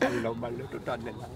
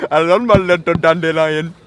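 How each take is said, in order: First: Soft, low mock Indian accent. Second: Slow, loud mock Indian accent. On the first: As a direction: murmur it in a hammy Indian accent. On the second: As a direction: stretch it out in a hammy Indian accent. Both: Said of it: "doing an Indian accent".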